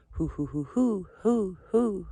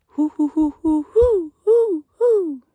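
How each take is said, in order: First: A gentler retry of the owl call. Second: High falsetto hooting in a steady rhythm; owl call. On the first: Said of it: "Something like that". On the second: Camper imitates the owl he heard, high hoots. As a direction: hoot high like an owl in the night. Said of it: "I don't have the best owl call". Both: Shown as a demonstration.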